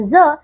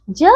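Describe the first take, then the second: First: ज pronounced as a buzzing English z, as in "is"; dotted ज sound. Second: Said in the usual way. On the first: Shown as a demonstration. Teacher shows children how the dot under ज changes it, z sound. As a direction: voice ज as z, not j. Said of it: "is के समान ज का उच्चारण". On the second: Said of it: "इसका उच्चारण बदल जाता है".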